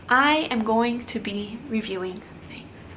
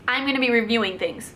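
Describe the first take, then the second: First: The line is delivered in a gentler tone. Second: The line is delivered in an aggressive tone. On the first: The speaker calls it right. "Was that nicer?" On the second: The speaker calls it wrong. "That sounds aggressive"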